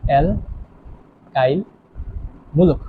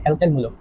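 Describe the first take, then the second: First: alkyl মূলক drawn out very slowly, part by part; slow dictation. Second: Said in the usual way. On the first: Shown as a demonstration. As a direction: stretch alkyl, pause, then মূলক, as if writing it. Teacher spells out term while writing. (লেখার তালে খুব ধীরে টেনে টেনে)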